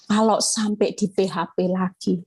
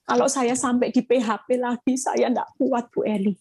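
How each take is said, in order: First: Said in the usual way. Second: Lightly voiced worried woman, pleading; anxious counselee. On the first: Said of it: "Saya cuma jawabnya singkat". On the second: Pastor quoting a worried wife in counseling, mild anxious pleading. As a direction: plead as a mildly frightened wife. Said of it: "bilang gini".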